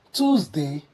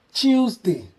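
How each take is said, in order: First: "Tuesday" as tooz-day, American way. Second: "Tuesday" as chooz-day, British way. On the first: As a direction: say "Tuesday" with a plain t and oo. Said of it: "as the American will pronounce it". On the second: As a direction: soften the t of "Tuesday" to ch. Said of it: "the way the British will pronounce this". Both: Shown as a demonstration.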